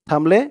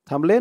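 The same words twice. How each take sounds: No difference in how they are said.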